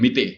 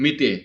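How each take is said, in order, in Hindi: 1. शब्द 'e' स्वर से खत्म होता है। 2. शब्द 'e' स्वर से खत्म होता है।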